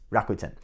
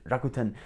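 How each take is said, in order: First: It is said in a plain English accent. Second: It is said with a slight Japanese accent. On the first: "I won't do the accent" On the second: "I'm saying it in a bit of a Japanese accent"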